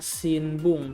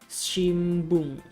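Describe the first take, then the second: First: The nasal before b is pronounced as n. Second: The nasal before b is pronounced as m. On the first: The speaker calls it wrong. "di sini tertulisnya Sinbung" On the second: The speaker calls it right. "tapi kita baca Shimbung"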